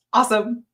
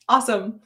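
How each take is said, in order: Both takes have the same delivery.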